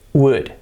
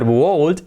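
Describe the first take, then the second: First: No L sound is pronounced in the word. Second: An L sound is pronounced in the word. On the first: The speaker calls it right. "it's would" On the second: The speaker calls it wrong. "it's not wold"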